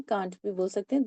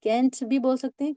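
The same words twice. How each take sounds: First: "can't" said with a short flat "a"; can't as kant. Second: "Can't" said with a broad open "a"; can't as kaant. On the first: Teacher showing the flat Indian "can't" to her student. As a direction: clip the vowel of "can't" short. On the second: Teacher showing the British-style "Can't" to her student. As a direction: stretch the vowel of "Can't" like kaant. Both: Shown as a demonstration. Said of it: "दोनों ही pronunciation ठीक है".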